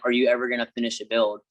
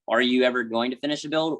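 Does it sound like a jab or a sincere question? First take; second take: jab; sincere question. First: It sounds like a mocking, critical jab. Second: It sounds like a genuine, curious question. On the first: The commenter is insulting the creator. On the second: The commenter honestly wants to know.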